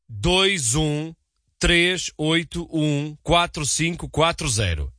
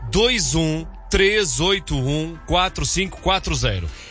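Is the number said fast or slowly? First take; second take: slowly; fast. First: The number is said slowly and deliberately. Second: The number is said at normal, quick speed.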